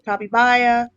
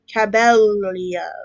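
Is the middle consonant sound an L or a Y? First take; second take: Y; L. First: The double L is said as a Y sound. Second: The double L is said as an L sound. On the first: "Is the L supposed to be more like Spanish" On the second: "Am I supposed to say the L's?"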